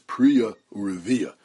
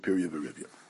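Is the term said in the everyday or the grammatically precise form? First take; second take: precise; everyday. First: It is said in the grammatically precise form. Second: It is said in the everyday spoken form. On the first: This is the grammatically correct form. "the dikduk proper way to pronounce Piriyah V'Rivya is Priya Urivya" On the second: This is the common spoken usage. "I'll fall back on the vernacular usage that I'm used to"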